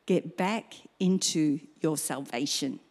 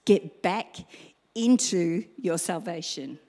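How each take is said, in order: First: Said in the usual way. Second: Louder BACK after a long pause, then into your salvation; punched repeat. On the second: Shown as a demonstration. Preacher repeating the call to the congregation, stress on back. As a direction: hit back hard, hold, then finish. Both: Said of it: "it's as simple as this".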